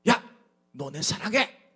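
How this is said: It is said in a forceful, harsh tone.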